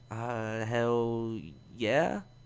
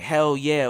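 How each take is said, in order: First: It is said flatly, without enthusiasm. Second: It is said with strong enthusiasm.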